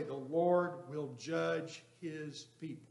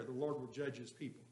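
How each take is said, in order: First: Each word drawn out slowly; solemn slow scripture reading; slow deliberate reading. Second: Said in the usual way. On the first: Shown as a demonstration. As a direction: read it slowly, weighing every word. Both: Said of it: "Which word would you put the emphasis on".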